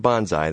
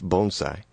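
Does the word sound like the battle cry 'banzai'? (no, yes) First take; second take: yes; no. First: It sounds like the battle cry banzai. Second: It does not sound like the battle cry. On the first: The speaker calls it wrong. "It's not bonsai. That's what you yell when you jump out of an airplane" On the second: The speaker calls it right. "It's bonsai"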